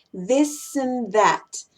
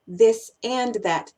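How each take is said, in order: First: "this and that" as "this'n that", slow; reduced "and". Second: "this and that" with a full, stressed "and", slow; weight "this", "and", "that" the same; equal emphasis. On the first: Teacher listing common pairs, slow "this'n that". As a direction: shrink "and" to n between "this" and "that". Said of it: "No es". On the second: Teacher showing what not to do, fully stressed "and". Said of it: "la misma importancia". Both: Shown as a demonstration.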